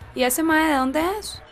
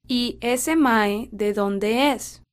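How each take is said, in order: First: It is said at normal conversational speed. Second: It is said slowly and carefully.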